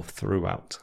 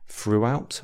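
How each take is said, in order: First: Said in the usual way. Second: "Throughout" begun with F, like "froo-out". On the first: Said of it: "instead of the T H sound". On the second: Shown as a demonstration. Teacher contrasting two sounds for learners, "Throughout" said with F. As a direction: swap the TH in "Throughout" for an F. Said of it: "the F sound instead of the T H sound".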